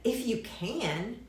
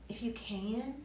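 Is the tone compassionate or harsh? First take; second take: harsh; compassionate. First: It is said in a harsh, challenging tone. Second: It is said in a gentle, compassionate tone. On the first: The man's doubt is being rebuked. The speaker calls it wrong. "But I don't think he said it like that" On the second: The man's pain is met with sympathy. The speaker calls it right. "Jesus was full of compassion for the hurting"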